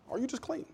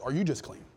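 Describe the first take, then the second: First: "clean" rising, pitched much higher and softer; high pointed question. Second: Said in the usual way. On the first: Shown as a demonstration. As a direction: ask it again high and soft, letting "clean" lift.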